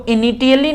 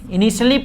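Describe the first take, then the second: First: "initially" said with a hard t, i-ni-tee-a-lee; wrong pronunciation. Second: "initially" said with a sh/s sound, i-ni-shlee; correct pronunciation. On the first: Teacher shows how not to read it, wrong pronunciation. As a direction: sound out the t in "initially" as spelt. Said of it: "नहीं पढ़ते". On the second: Teacher shows how this word is read, correct pronunciation. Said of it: "पढ़ते हैं इसको". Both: Shown as a demonstration.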